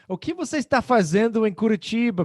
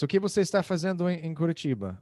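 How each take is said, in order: First: It is asked in a surprised, disbelieving tone. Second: It is asked in a plain, neutral tone. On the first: The speaker wonders why the person is there at all. "pô?" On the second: The speaker asks what activity the person is doing there. "Ou seja, o que você está fazendo"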